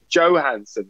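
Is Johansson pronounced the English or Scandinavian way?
English. The name has an English pronunciation. The speaker calls it wrong. "it's only imbecile people who say Johansson"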